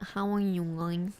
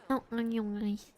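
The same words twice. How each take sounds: First: Stuffy nasal greeting; blocked nose. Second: Said in the usual way. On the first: Shown as a demonstration. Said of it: "I'm like".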